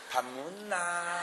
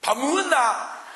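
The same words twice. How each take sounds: First: Slow, soft, coaxing tone; sweet to bar hostess. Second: Slow, loud, curt Gyeongsang husband; gruff to wife. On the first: Same husband asking a bar hostess, soft and slow. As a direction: coo it gently and slowly. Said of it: "술집 여자한테 물어볼 때". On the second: Gyeongsang husband asking his wife if she ate, slow and loud. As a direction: toss it at the wife slow and blunt. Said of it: "마누라한테 밥 먹었냐고 물어볼 때 보세요". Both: Retold or imitated.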